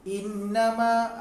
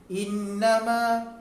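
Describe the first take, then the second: The two takes are said the same way.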